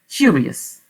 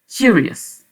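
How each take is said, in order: Both takes have the same delivery.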